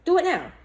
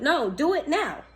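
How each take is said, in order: First: Higher, punchier repeat of Do it now; an emphatic higher restatement; insistent repeat. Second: Slow and firm, stress on do; a slow insistent push on do; firm urging. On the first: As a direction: snap it back, higher. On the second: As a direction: press the words do it now, slowly. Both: Real, not acted. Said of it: "urging the viewer".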